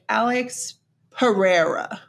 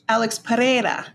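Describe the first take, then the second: First: The name is read with English sounds. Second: The name is read with Spanish sounds. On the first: "if you're reading it with English eyes"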